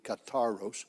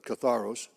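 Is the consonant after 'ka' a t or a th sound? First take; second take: t; th. First: The middle consonant is a plain t sound. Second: The middle consonant is a th sound. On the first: "in the French they pronounce a th just like a t, so that would be katharos" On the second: "but katharos"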